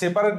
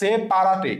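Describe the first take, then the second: First: It has the usual pronunciation of the word. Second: Each written syllable is pronounced as spelled.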